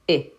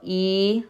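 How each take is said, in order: First: The vowel sound is cut short. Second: The vowel sound is held long. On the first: "short vowel" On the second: "Long vowel"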